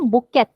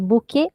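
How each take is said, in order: First: The final t sound is pronounced. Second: The final t sound is silent. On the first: The speaker calls it wrong. "She didn't say bouquet, which is how we speak most of our English let- words" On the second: The speaker calls it right. "did not pronounce the last letter"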